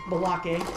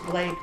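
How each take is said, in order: First: The name is said with two syllables. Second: The name is said with one syllable. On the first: This is a playful nickname. "but we called him" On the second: This is the dog's real name. "his name was"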